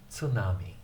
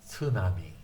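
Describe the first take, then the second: No difference in how they are said.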